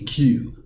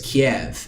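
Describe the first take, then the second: First: The name ends with a W sound. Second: The name ends with a V sound. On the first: The speaker calls it right. "the V in Ukraine is supposed to be with a pronounced with a W sound" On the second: The speaker calls it wrong. "what we could have all been saying is Kiev"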